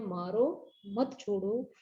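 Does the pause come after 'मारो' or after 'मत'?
after मारो. The pause comes right after 'मारो'.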